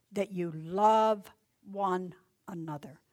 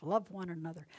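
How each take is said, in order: First: Love drawn out, louder and slow; love stretched as the key word; stress on love. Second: Said in the usual way. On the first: Acted. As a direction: lean on love, give it weight. Repeated love, emphasized.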